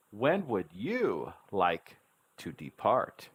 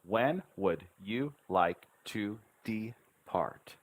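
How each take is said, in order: First: Slow, tune swooping up on WHEN and YOU; with intonation. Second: Slow, even beats from "When" to "depart"; syllable by syllable. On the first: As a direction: stress "When" and "you" with big pitch swings, syllables joined. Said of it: "Now we add the intonation". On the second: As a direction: separate every syllable, even de-part, on a level tune. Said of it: "learn to speak the syllable sounds". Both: Shown as a demonstration.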